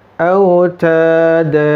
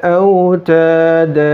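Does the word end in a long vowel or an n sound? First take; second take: long vowel; long vowel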